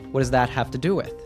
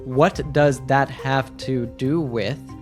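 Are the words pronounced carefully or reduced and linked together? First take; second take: reduced; carefully. First: The words are reduced and run together fluently. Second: Each word is pronounced fully and separately. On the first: The speaker calls it right. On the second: The speaker calls it wrong. "this full question is not"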